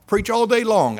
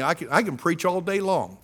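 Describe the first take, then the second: First: "preach all day long" repeated louder, stress on "day"; emphatic repeat. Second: Said in the usual way. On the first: Real, not acted. Preacher to the congregation, louder emphatic repeat. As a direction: hammer the repeat home. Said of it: "repeated louder". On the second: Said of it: "repeats it louder".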